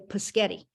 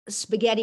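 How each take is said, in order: First: The word begins with a p sound. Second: The word begins with an sp sound. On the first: "you say paschetti" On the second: "instead of saying uh"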